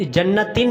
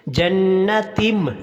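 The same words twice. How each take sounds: First: जन्नतिन said short, ending in a clear N; wrong N ending. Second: जन्नतिम chanted slowly, ending in a long hummed M; correct nasal ending. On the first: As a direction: end जन्नतिन on N with no long hum. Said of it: "जन्नतिन नहीं पढ़ना". (जन्नतिन के आख़िर में नून, बिना ग़ुन्ना) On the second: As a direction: hold a nasal meem at the end of जन्नतिम. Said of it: "मीम की वार के साथ गुणना करना है". (जन्नतिम के आख़िर में मीम पर ग़ुन्ना) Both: Shown as a demonstration.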